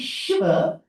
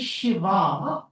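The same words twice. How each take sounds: First: The word ends in a short final vowel. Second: The word ends in a long final vowel. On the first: It refers to the male aspect. "you're talking about the male aspect" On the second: It refers to the female aspect. "you're talking about the female aspect"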